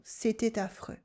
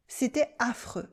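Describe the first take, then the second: First: "C'était affreux" mit gebundenem t, "cétai-taffreux"; liaison. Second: Said in the usual way. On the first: Shown as a demonstration. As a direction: binde das t an "affreux". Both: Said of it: "And you can do la liaison".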